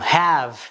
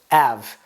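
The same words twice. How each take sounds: First: The word starts with an h sound. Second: The word starts without an h sound. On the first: The speaker calls it right. "have instead of" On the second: The speaker calls it wrong. "which doesn't mean anything, but it's just av without the h"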